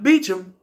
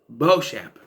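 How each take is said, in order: First: The name is said as Beecham. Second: The name is said as Beauchamp. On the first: The speaker calls it wrong. "It's not Beecham" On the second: The speaker calls it right. "It's Beauchamp"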